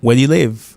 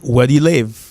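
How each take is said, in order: No difference in how they are said.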